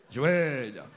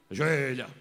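The two takes are said the same way.

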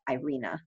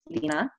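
First: The name is said with an English pronunciation. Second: The name is said with a Romanian pronunciation. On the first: "it's hard to say it like that in English. So I just started calling myself" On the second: "my Romanian pronunciation is"

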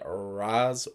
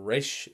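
First: The name is said the common way. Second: The name is said the creator's way.

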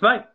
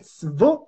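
First: It is said in standard German. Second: It is said in the local southern dialect.

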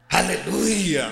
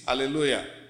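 First: It is said loudly with joyful energy. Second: It is said flatly, without energy.

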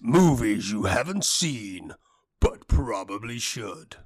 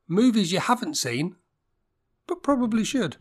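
First: It is said in a deep Hollywood voice. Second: It is said in a high-pitched voice.

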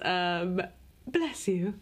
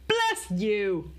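First: It is said politely, calm and restrained. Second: It is said loudly with joyful, abandoned energy. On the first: "in a very polite, dignified way" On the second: "the Sister Act bless you is more like"

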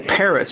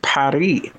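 First: It is said with an American pronunciation. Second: It is said with a French pronunciation. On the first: This is how Americans say the name. "we Americans would say Paris" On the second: This is how French speakers say the name. "French would pronounce it Paris"

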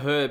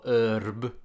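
First: The word begins with an audible h sound. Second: The word begins without any h sound.

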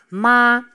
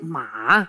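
First: The pitch stays high and level. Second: The pitch is very low and deep. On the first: It means mother. "De eerste is een hele hoge toon. Die is heel gelijk" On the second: It means horse. "De derde is een heel diepe. Die moet je voelen in je keel"

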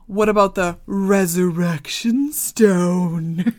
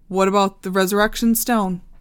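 First: It is said in a sarcastic tone. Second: It is said in a plain tone.

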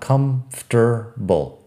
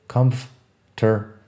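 No difference in how they are said.

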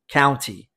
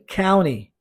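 First: The T sound in the middle is clearly pronounced. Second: The T sound in the middle is left out. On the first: The speaker calls it wrong. "E se escreve com o T, county, mas você não vai ouvir assim" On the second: The speaker calls it right. "Você vai ouvir county. As pessoas vão omitir o som desse T"

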